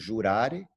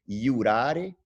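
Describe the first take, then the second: First: The word begins with a zh sound. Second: The word begins with a y sound. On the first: The speaker calls it wrong. "e não jurare" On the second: The speaker calls it right. "o J ele é a semivogal de I, então, por exemplo, iurare"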